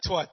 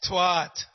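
First: The vowel is short. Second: The vowel is long. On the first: The speaker calls it wrong. "It's not twat" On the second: The speaker calls it right. "Long A"

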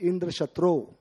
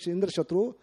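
First: The key vowel is drawn out long. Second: The key vowel is said short. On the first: The phrase asks for one whom Indra slays. The speaker calls it wrong. "he chanted long vowel" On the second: The phrase asks for one who slays Indra. The speaker calls it right. "Instead of a small vowel"

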